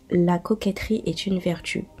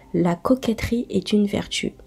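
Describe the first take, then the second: No difference in how they are said.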